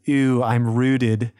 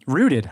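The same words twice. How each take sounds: First: Put-on slow, drawn-out Valley girl voice. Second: Said in the usual way. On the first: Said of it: "she sounds like your typical Valley girl". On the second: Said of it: "Um, rooted".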